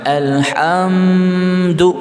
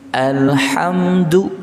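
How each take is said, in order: First: The m sound is drawn out and held. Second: The m sound is short and goes straight on. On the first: The speaker calls it wrong. "jangan alhamdu" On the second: The speaker calls it right. "Alhamdu langsung"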